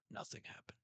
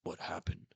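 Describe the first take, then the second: First: Soft whispered reply; exhausted Zoro shrugging it off; Zoro's rasp. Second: Rasping, whispered question; whispered, breathless Zoro; Zoro's rasp. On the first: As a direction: brush it off in a weak whisper. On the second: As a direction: barely get it out, exhausted. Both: Retold or imitated. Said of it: "And Zoro just goes".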